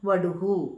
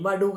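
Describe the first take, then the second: First: The word ends with a 'hu' sound. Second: The word ends with an 'ha' sound. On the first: The speaker calls it right. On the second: The speaker calls it wrong. "വടുഹ എന്ന് പറയരുത്"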